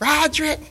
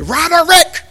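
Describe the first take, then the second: First: The name is said in a casual, relaxed way. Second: The name is said with every syllable clearly enunciated.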